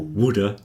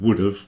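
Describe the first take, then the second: First: The words run together into one reduced word. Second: Both words are said fully and separately. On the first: "or woulda" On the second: "would have is kind of"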